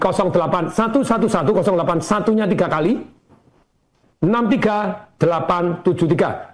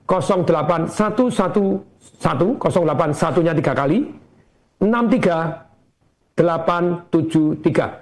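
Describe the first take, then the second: First: The number is read at a normal, quicker pace. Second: The number is read slowly, digit by digit.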